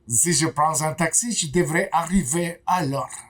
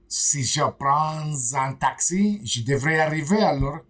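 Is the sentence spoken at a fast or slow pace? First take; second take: fast; slow. First: The sentence is spoken at normal conversational speed. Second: The sentence is spoken slowly and carefully.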